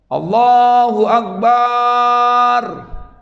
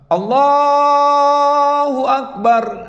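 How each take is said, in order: First: The final syllable bar is drawn out. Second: The final syllable bar is short. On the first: The speaker calls it wrong. "barnya panjang" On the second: The speaker calls it right. "itu pas, itu yang benar. Tapi barnya nggak panjang ya"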